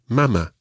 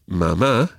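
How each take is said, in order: First: The stress is on the first syllable. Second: The stress is on the last syllable. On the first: "if it didn't have the accent, would be mama" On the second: "Mama and papa both have accents on the last syllable"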